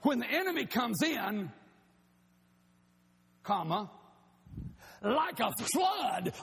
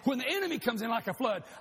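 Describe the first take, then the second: First: There is a break after 'comes in'. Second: It runs on without a break after 'comes in'.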